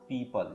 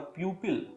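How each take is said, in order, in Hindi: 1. यह 'pee-pul' जैसा सुनाई देता है। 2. यह 'pew-pil' जैसा सुनाई देता है। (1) "बल्कि हमें बोलना पड़ेगा पीपल" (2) "लोग प्यूपल या प्यूपिल कर देते हैं, जो कि सही नहीं है"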